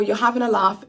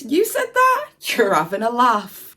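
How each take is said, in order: First: Said in the usual way. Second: A friend scoffing at a tall tale; mock disbelief. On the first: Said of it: "The Cockney rhyming slang for". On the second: Shown as a demonstration. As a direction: pitch leaps up on "You said that?" in mock surprise. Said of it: "Used in a sentence".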